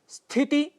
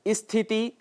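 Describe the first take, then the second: First: The word begins directly with the consonant cluster. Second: An extra vowel is added before the cluster. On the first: The speaker calls it right. "यह इसका शुद्ध उच्चारण है" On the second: The speaker calls it wrong. "जो गलत है"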